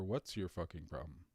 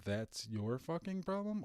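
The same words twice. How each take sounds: First: "What's your fucking problem" pitched low; snippy challenge, quoted. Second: "That's your fucking problem" pitched high; snippy quote. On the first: Commentator quotes Drew challenging Ken, low and snippy. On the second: Commentator quotes Drew getting snippy with Ken, higher-pitched. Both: Retold or imitated. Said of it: "was that Drew saying to Ken".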